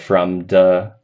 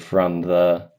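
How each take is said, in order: First: The th sound is a stop, like a d. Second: The th sound is continuous, not a stop. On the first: The speaker calls it wrong. "kind of turning into a D a little bit" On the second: The speaker calls it right. "a sound that's continuous instead of a stop"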